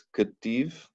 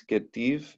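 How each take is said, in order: First: Ketiv with the first vowel reduced to a short shva; correct shva. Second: Ketiv with a full clear e after the K; wrong Hebrew vowel. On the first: Teacher giving students the right pronunciation, reduced shva in Ketiv. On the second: Teacher showing students the wrong pronunciation, full e in Ketiv. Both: Shown as a demonstration. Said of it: "no es E, es E".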